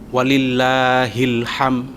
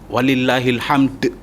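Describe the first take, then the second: First: The final word ends on a bare m sound. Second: The final word ends with a bounced d sound. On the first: The speaker calls it wrong. "itu salah" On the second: The speaker calls it right. "Paling tidak ada qalqalahnya. itu mending"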